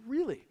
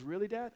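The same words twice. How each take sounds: First: "Really" pitched high, then falling firmly; affirming answer. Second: "Really, Dad?" as a soft, wondering question; hopeful question. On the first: Dad answering his son's doubt, high and affirming "Really". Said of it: "I said". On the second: Son asking his dad after crying, retold as a soft question. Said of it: "then he stopped crying. He goes". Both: Retold or imitated.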